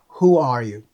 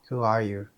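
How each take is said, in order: First: The vowel in 'who' has strongly rounded lips. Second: The vowel in 'who' has little lip rounding. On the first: The speaker calls it right. "shape your lips, like when you are kissing, like this" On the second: The speaker calls it wrong. "I always forget to do this, so I always say"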